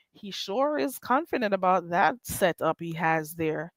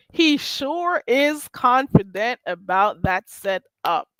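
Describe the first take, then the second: First: Said in the usual way. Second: Slow, deliberate delivery, word by word; drawn-out emphasis. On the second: Real, not acted. Host repeating a remark about his setup, slow and emphatic. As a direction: stretch each word to drive it home.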